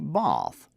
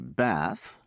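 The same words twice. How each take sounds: First: It is said in a British accent. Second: It is said in an American accent. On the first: "the British say bath" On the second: "Americans say bath"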